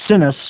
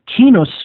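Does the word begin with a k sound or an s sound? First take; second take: s sound; k sound. First: The word begins with an s sound. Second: The word begins with a k sound. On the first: This is the common everyday pronunciation. "as most people would pronounce it" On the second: This is the original Latin pronunciation. "In Latin, it would actually be pronounced kinus"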